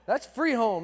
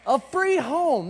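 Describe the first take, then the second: First: Said in the usual way. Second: "A free home" drawn out slowly, weight on free; slow emphasis on free. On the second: Shown as a demonstration. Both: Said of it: "are you people listening to me?".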